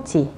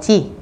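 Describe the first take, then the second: First: "chỉ" closing the word read syllable by syllable; separate, unlinked "chỉ"; as written. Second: "chỉ" closing the slowly linked ha-ra-beo-ji; linked reading. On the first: Teacher reading the written word ending in "chỉ", unlinked. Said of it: "Khi đọc nối lên". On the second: Teacher showing students linked reading ending in "chỉ". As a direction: draw out the linked word up to "chỉ". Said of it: "Khi đọc nối lên các bạn sẽ đọc là". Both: Shown as a demonstration.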